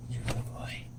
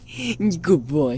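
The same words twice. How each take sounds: First: Soft breathy whisper. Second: Said in the usual way. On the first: Real, not acted. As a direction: whisper it to the dog. Whispering praise to the dog.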